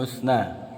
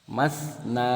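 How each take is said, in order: First: The first vowel is a rounded 'u' sound. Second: The first vowel is an open 'a' sound. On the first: The speaker calls it wrong. "bukan musna" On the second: The speaker calls it right. "dengan fathah ya"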